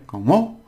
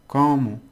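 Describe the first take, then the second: First: "como" rising high and loud on MO; accented final syllable. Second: "como" high on the first syllable, falling; stress on CO. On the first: Teacher puts an accent here, stressing the MO of "como". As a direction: punch the second syllable of "como" upward. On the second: Teacher contrasts meanings for learners, "como" stressed on CO. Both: Shown as a demonstration. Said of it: "if you put an accent here".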